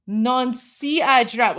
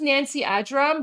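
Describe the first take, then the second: First: Nancy Ajram read slowly as NAHN-see; sounded out. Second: Said in the usual way. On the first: Shown as a demonstration. Streamer showing what she sees in Arabic, sounded out. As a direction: stretch Nancy Ajram out, reading it off letter by letter. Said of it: "So I'm looking at". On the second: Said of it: "I know her name".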